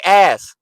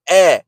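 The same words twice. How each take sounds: First: "ass" said loud with a full final s; crisp, complete "ass" to correct them; proper pronunciation. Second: "Eh" for ass, the final s dropped; mock the slurred word as a loud "Eh"; loud, high "Eh" with no ending; mocked mispronunciation. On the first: Shown as a demonstration. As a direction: model "ass" clearly, high and loud. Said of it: "Say ass". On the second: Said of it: "It's ass. A S S".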